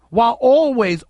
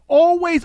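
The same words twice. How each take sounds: First: Said in the usual way. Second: Always pitched high and pushed hard; the echoed always jumps up in pitch; rising stress on always. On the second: Acted. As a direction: hit always high to drive it home. Repeating always for emphasis.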